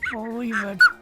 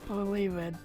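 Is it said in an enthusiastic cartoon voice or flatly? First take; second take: enthusiastic; flat. First: It is said in an enthusiastic cartoon voice. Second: It is said flatly, without enthusiasm.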